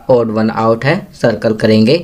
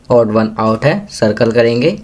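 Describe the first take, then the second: No difference in how they are said.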